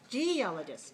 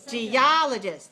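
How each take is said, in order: First: The stress is on the first syllable. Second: The stress is on the second syllable. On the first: The speaker calls it wrong. "if it's first one, it'll be like this" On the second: The speaker calls it right. "That's the second one"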